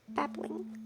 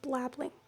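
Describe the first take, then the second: First: No L sound follows the first B. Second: An extra L sound follows the first B. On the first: The speaker calls it right. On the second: The speaker calls it wrong.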